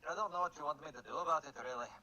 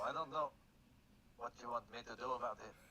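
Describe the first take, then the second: First: It is said in a put-on character voice. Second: It is said in the speaker's own voice.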